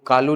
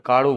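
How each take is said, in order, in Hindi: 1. बीच का व्यंजन सामान्य दंत्य 'ल' है। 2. बीच का व्यंजन मूर्धन्य फ्लैप जैसी ध्वनि है। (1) "वो कालू नहीं बोले" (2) "काड़ू बोलेगा"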